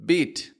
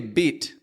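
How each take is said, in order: The two takes are said the same way.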